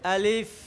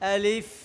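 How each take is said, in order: No difference in how they are said.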